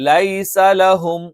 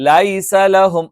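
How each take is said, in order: Both takes have the same delivery.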